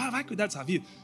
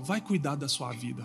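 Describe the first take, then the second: First: It is said in a harsh, nasty tone. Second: It is said in a warm, loving tone.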